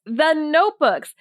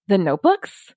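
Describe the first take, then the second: First: "The notebooks." as a slow, falling, insistent statement; "The notebooks." stated firmly, falling at the end. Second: "The notebooks?" asked with a rising tune at the end; "The notebooks?" turned into a question, rising; questioning rise. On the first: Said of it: "he kept saying". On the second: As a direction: echo "The notebooks?" back as a puzzled question. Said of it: "his son just went". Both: Retold or imitated.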